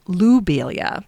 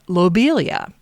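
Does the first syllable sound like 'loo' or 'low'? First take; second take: loo; low. First: The first syllable sounds like 'loo'. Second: The first syllable sounds like 'low'. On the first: "knowing the French pronunciation of his name, I will say it Loubelia" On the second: "I pronounced lobelia as lobelia"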